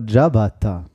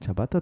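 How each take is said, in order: First: "Ciabatta" with a voiced dsch at the start; corrected pronunciation. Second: "Ciabatta" with a hard tsch at the start; low, soft "Ciabatta" with voiceless ch; usual pronunciation. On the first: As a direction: say "Ciabatta" as dja-BAT-ta. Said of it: "Tatsächlich heißt es aber Ciabatta". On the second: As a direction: say "Ciabatta" as tscha-BAT-ta. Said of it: "Tatsächlich heißt es aber". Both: Shown as a demonstration.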